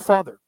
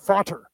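First: The middle consonant is a th sound. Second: The middle consonant is a plain t sound. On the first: "instead of father" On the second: "that's why the Irish say t, fater"

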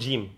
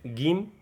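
First: It is said in a non-Egyptian way. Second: It is said in the Egyptian way. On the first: "not Jim" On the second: "In Egypt, we said Gim"

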